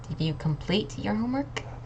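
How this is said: The word "complete" is stressed. It asks whether the work is finished.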